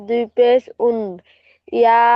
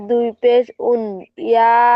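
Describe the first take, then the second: No difference in how they are said.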